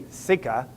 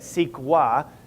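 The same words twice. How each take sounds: First: The middle sounds like a plain k. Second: The middle sounds like kw, with a w. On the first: This is how the speaker thinks it should be said. "It should be CEQA" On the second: This is the usual pronunciation. "it's got a U in it in the way we say it"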